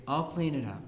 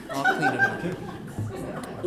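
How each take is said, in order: First: Said in the usual way. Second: Much higher, slow, breathy falsetto; mock tragic squeak with a laugh; martyred child. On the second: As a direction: whimper it like a self-pitying kid.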